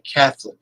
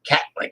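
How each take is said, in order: First: The word is said with three full syllables. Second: The word is squeezed into two syllables, cat-lick. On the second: "they say Catlick, like a cat licking"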